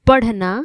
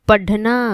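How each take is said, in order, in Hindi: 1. बीच का व्यंजन एक नरम जीभ-फ्लैप है। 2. बीच का व्यंजन एक कड़ा स्टॉप है।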